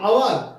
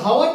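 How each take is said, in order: First: The word begins directly with a vowel sound. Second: The word begins with an audible h sound. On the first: The speaker calls it right. "এটা কি আওয়ার" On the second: The speaker calls it wrong. "এটা হাওয়ার তো নয়"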